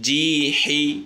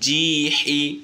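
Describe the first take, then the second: Both takes have the same delivery.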